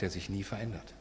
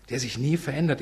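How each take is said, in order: First: Soft. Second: Nie lifted and firm at full voice; stress on nie. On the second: Preacher repeating that God never changes, stressing nie. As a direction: lean on the word nie with conviction. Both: Shown as a demonstration.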